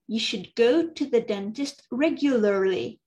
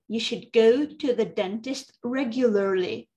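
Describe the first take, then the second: Both takes have the same delivery.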